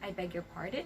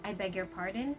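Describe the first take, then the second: No difference in how they are said.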